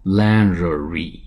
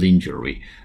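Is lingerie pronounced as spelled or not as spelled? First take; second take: not as spelled; as spelled. First: It is pronounced differently from its spelling. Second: It is pronounced as its spelling suggests. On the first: The speaker calls it right. "实际上叫lingerie" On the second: The speaker calls it wrong. "不是lingerie 字面如音发成lingerie"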